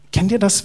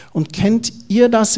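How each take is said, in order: First: Said in the usual way. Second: Ihr drawn out slowly, pitched up and leaning on it; slow question, lean hard on ihr; stress on ihr. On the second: Shown as a demonstration. Preacher asking the congregation, ihr stressed slowly. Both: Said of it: "Ich nutze das bayerische Ihr heute".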